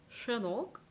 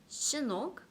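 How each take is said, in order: First: The first consonant is a broader, airier sh. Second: The first consonant is a thin, whistling hiss. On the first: The speaker calls it wrong. "이걸 샤로 발음했다면 이렇게 됐을 거예요" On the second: The speaker calls it right. "최대한 이 입천장과 혀를 붙여서 발음이 최대한 얇게 새어나가는 발음"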